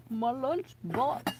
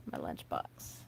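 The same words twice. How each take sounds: First: Slow, higher, drawn-out "lunchbox"; playful voice. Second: Said in the usual way. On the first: Pretend. Woman hunting for her old lunchbox, playful drawl. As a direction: stretch it out in a playful put-on voice.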